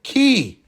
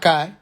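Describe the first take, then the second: First: The name is said with an 'ee' vowel. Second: The name is said with an 'eye' vowel. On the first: The speaker calls it right. "Planet Key" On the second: The speaker calls it wrong. "not Kai"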